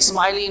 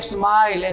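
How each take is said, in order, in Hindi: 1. शब्द के अंत में जुड़ा 'ee' स्वर है। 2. शब्द व्यंजन l पर खत्म होता है।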